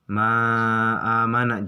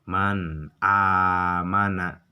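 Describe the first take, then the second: First: The n is not pronounced clearly before the vowel. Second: The n is pronounced clearly before the vowel. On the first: The speaker calls it wrong. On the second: The speaker calls it right. "harus jelas"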